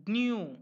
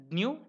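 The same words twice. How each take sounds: First: Dnu with a drawn-out long oo; long dnoo. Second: Dnu with a short, quick u. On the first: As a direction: stretch the oo of dnu. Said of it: "second one is longer". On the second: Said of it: "the first one is a shorter". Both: Shown as a demonstration.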